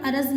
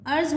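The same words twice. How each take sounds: First: अरज़ said araz with an extra a; wrong pronunciation. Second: अर्ज़ said arz in one syllable, no vowel between r and z; correct pronunciation. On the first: Teacher showing students the wrong araz. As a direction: show the mistake: a-raz. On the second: Teacher giving students the correct arz. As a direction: tight arz. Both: Shown as a demonstration. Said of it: "अरज़ नहीं होता".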